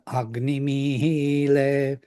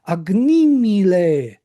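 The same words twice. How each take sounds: First: The final syllable is pitched higher than before. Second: The final syllable is pitched lower than before. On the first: This marks that the previous syllable carries the accent. "But what happened in the recording?" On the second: This is the natural spoken accent. "Ile is unaccented"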